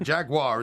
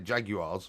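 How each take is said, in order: First: It is pronounced the American way. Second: It is pronounced the British way. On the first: It matches how the team's home country says it. "Jaguar is the way you say it" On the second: It matches how the host's country says it. "obviously we say Jaguars"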